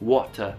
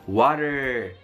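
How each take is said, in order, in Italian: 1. La R finale non si pronuncia. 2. La R finale si pronuncia con forza. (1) "loro togliamo spesso la finale R" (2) "noi teniamo molto duro quella R"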